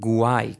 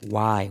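First: It begins with a G-like sound before the W. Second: It begins with a plain W sound. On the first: The speaker calls it wrong. "nada de why con G, que suele ser también un error común" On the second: The speaker calls it right. "sino why"

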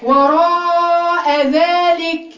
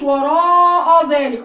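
First: The opening glottal sound is thin and light. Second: The opening glottal sound is thick and heavy. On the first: The speaker calls it right. "رقق الهمزه ... لكن هي وراء ذلك" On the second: The speaker calls it wrong. "ما تقوليش وراء ذلك لا هي مش دي لما يبقى عندك وجع في اسنانك"

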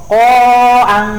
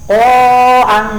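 Both takes have the same delivery.

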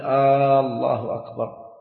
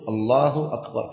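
First: The opening vowel of the first word is drawn out. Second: The opening vowel of the first word is short. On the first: The speaker calls it wrong. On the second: The speaker calls it right.

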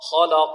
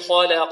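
First: The l sound is thick and heavy. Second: The l sound is thin and light. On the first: The speaker calls it wrong. "كيف يفخمونها؟ يقول هكذا" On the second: The speaker calls it right. "اللام مرققة"

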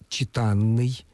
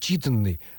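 First: The stress is on the second syllable. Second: The stress is on the first syllable.

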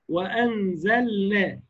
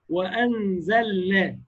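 No difference in how they are said.

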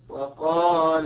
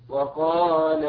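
Both takes have the same delivery.

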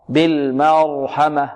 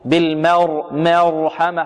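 First: The a vowel is fully open. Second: The a vowel is tilted toward e. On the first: The speaker calls it right. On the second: The speaker calls it wrong.

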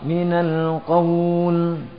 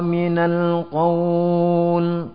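First: The vowel in qawl is held for two beats. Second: The vowel in qawl is held for four beats. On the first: "itu yang dua harakat" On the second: "kalau empat harakat"

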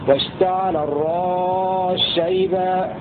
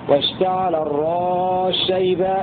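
No difference in how they are said.

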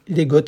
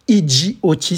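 First: The term is pronounced as a single word. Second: The term is spoken as separate letters. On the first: "ça se dit peut-être pas comme cela" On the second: "si vous préférez, puisque ce sont des initiales"

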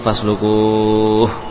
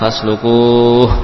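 First: The long vowel is held for six counts. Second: The long vowel is held for four counts.

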